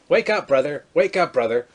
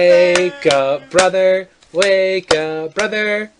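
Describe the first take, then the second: First: It sounds annoyed and irritated. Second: It sounds playful, like a game.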